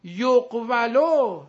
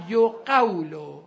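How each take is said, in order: First: یقولو loud and very slow, yoq-va-lo; unshifted passive form. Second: یقولو loud and slow, yo-QAW-lo; shifted passive form. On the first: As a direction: call out یقولو with closed q, then VA. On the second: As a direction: stretch یقولو with aw diphthong after q. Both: Shown as a demonstration.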